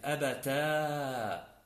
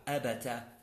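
First: "أبتا" with a very long final aa; slow, stretched "أبتا" on an open alif; ta plus alif. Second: "أبتا" said abata, short final a; brief "أبتا" with fatha on the ta. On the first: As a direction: hold the last vowel of "أبتا": a-ba-taaa. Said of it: "لغة التاء والألف". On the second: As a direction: keep the end of "أبتا" short: a-ba-ta. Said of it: "بالتاء المفتوحة". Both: Shown as a demonstration.

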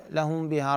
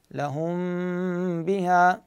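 First: لهم بها run straight through, no hold on the meem; no ghunnah. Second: لهم بها with a long nasal hum on the m of لهم; meem held two counts. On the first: Teacher showing students the mistake, meem cut short. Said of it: "مو بس لهم بها رأسًا، لا". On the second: Teacher correcting the rushed take, meem held with ghunnah. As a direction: linger on the meem of لهم before releasing بها. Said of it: "امكث على الميم". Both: Shown as a demonstration.

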